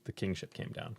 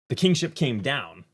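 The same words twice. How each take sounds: First: It is said plainly, like a simple statement. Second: It is said emphatically, like an exclamation.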